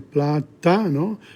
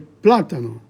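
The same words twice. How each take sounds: First: The stress falls away from the accented syllable. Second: The stress falls on the accented syllable. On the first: The speaker calls it wrong. "you can't say platano" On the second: The speaker calls it right. "you have to say platano"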